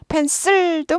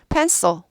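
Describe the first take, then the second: First: The last syllable has a full Korean-style vowel. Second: The last syllable is reduced, English-style. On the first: The speaker calls it wrong. "펜슬도 뭐 알아는 듣겠지만" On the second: The speaker calls it right. "그거보다 pencil"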